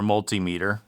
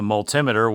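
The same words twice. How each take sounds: First: Multimeter said as MUL-tee-MEE-ter; long ee in the meter of multimeter; alternate pronunciation. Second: Multimeter said as mul-TIM-uh-ter; alternate pronunciation. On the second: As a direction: stress the TIM in multimeter, short i. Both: Real, not acted. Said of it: "however you pronounce it".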